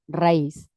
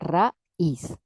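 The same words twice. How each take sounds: First: The two vowels are joined in one syllable. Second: The two vowels are said as separate syllables. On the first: "esto funciona como un diptongo" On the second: "se rompe el diptongo"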